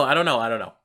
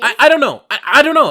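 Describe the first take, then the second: First: Said in the usual way. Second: High, loud, flustered "I don't know"; flustered dodge. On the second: Real, not acted. Guest flustered by the host's yogurt question, high and loud. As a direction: blurt it out high and loud, caught off guard.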